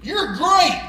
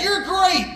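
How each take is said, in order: First: Higher, projected call; dad's retold shout, lightly done. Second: High echo of the call; mimicked far-off call, pitched up; voice calling back. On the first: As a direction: call it out to raise an echo. Dad calls out to raise echo. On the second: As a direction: imitate an echo returning the praise. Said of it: "the voice came back".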